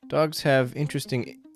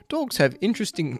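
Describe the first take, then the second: First: It is said in the speaker's normal accent. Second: It is said in an English accent.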